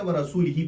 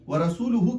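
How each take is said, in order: First: The ending after rasul uses i vowels. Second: The ending after rasul uses u vowels. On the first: God is free of the polytheists and of his messenger. The speaker calls it wrong. "यहां जैर पढ़ेंगे तो इसका माना बनेगा" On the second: God and his messenger are both free of the polytheists. The speaker calls it right. "व रसूलुहु के बजाय"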